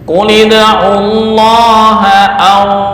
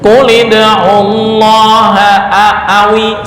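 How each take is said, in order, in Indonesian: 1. Kata terakhir berhenti pada 'aw' tanpa vokal. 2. Kata terakhir diakhiri dengan vokal 'i' tambahan. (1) "boleh dibaca au ketika waqaf"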